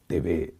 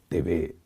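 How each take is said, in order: First: The letters are said the Latin American way. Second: The same.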